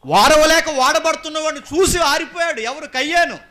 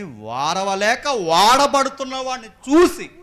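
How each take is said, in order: First: Very high, loud preaching cry; full-force shout. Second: Drawn-out words climbing high and loud; slow emphatic build. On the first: Preacher repeating why Cain's light went out, shouted. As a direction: shout the whole point out in one go. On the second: Preacher explaining Cain's envy, slow and building. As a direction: stretch it out, rising to a cry. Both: Acted.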